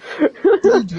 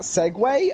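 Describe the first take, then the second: First: It is one syllable ending in a 'g' sound. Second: It is two syllables ending in 'way'. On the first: The speaker calls it wrong. "I thought it was like pronounced Sieg or something" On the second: The speaker calls it right. "we're pronouncing that Segway"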